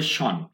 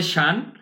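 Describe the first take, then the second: First: শন with a rounded "o", like "shon"; British pronunciation. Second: শান with an open "a", like "shan"; American pronunciation. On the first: Teacher contrasting British with American, British "shon". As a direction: say শন, British-style rounded vowel. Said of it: "ব্রিটিশরা বলে". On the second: Teacher contrasting American with British, American "shan". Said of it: "আমেরিকায় বলে". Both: Shown as a demonstration.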